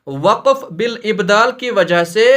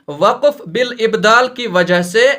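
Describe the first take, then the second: No difference in how they are said.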